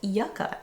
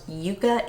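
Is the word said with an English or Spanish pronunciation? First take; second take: English; Spanish. First: The word is said with an English pronunciation. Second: The word is said with a Spanish pronunciation. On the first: "In the English pronunciation, it is called yucca" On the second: "pronounced yuca in Spanish"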